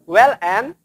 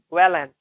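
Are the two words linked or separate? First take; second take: separate; linked. First: The two words are said separately. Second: The l runs straight into the next word. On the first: The speaker calls it wrong. "Bukan well and" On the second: The speaker calls it right. "tapi Wellen"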